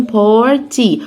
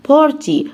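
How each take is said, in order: First: "بورتي" as two separate parts, par, tee; split in two. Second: Said in the usual way. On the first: Shown as a demonstration. Teacher divides the word for learners, "بورتي" in two parts. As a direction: break "بورتي" after the r, holding each half. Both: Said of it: "انا اقسمها جزئين".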